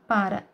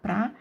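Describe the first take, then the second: First: The word is said fully with two syllables. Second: The word is shortened to one syllable. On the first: This is the formal form. "a linguagem formal" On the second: This is the informal, colloquial form. "O pra é uma forma sincopada do para"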